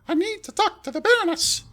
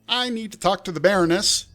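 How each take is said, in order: First: It is said in a put-on fairy voice. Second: It is said in a different, non-fairy voice.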